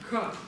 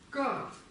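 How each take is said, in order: First: The k is said with a puff of air. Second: The k is said without a puff of air. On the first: "вторая будет аспиративная, то есть с придыханием" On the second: "Первая, первая произносится в высоком тоне"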